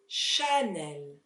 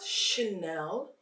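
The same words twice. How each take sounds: First: The first vowel is a clear, full A. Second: The first vowel is weak and reduced. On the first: The speaker calls it right. "here we really need to hear the A" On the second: The speaker calls it wrong. "it is not Chanel"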